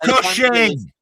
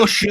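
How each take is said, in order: First: The word ends with a clear 'ing' sound. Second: The word ends with a soft 'un' sound. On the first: The speaker calls it right. "Peter Cushing, not" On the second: The speaker calls it wrong. "not cushion"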